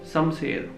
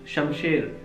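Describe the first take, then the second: First: The word is said with s sounds. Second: The word is said with sh sounds. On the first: "they speak Samser" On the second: "If you ask them to speak Shamsher"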